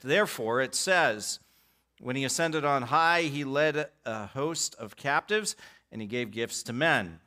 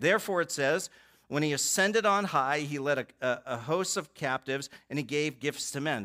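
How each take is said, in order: No difference in how they are said.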